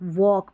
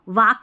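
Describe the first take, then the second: First: The vowel sounds like a rounded 'o'. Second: The vowel sounds like an open 'a'. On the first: The speaker calls it right. "वॉक पढ़ना है" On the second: The speaker calls it wrong. "इसको वाक भी नहीं पढ़ना है"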